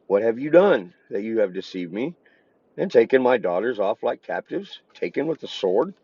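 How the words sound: It is read with question intonation.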